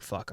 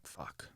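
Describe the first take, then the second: First: Said in the usual way. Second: "Fuck" barely voiced, dropped very soft; stunned quiet curse. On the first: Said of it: "But I'm not like". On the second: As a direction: let "Fuck" fall out in shock, hushed. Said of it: "she's like".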